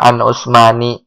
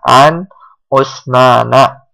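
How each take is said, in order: First: The name ends in a short i sound. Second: The name ends in a short a sound. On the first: The speaker calls it wrong. "Nggak an Usmani" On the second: The speaker calls it right. "Jawaban yang benar adalah an Usmana"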